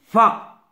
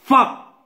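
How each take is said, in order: First: Said in the usual way. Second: "fa" pushed slightly higher; an emphatic, raised "fa"; how not to say. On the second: Shown as a demonstration. Teacher warning pupils off a mistake, emphatic wrong version. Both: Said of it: "ما تنقوليهاش".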